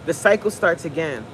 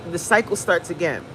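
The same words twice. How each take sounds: The two takes are said the same way.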